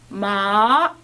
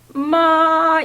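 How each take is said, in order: First: The pitch rises from middle to high. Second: The pitch stays high, level and long. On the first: "한 중간쯤부터 끝에까지 올라간다" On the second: "일성은 이렇게 해요. 그러니까 길어요"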